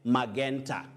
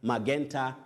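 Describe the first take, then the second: Both takes have the same delivery.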